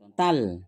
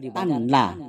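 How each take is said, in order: First: The n merges into the l with no nasal sound. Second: A separate nasal n is heard before the l. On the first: The speaker calls it right. "masuk tidak berdengung" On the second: The speaker calls it wrong. "Tidak boleh dibaca"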